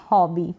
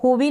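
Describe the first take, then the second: First: हॉबी with an open "aw" as "haw-bee"; open-o pronunciation. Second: हॉबी misread with a closed "oh" as "hoh-bee"; wrong long-o reading. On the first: Teacher tells learners how to read it, open-o हॉबी. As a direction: open up the first vowel of हॉबी to "aw". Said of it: "इसको पढ़ेंगे". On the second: Teacher rules out a misreading, closed-o हॉबी. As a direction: say हॉबी like "होबी". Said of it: "नहीं बोलेंगे इसको". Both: Shown as a demonstration.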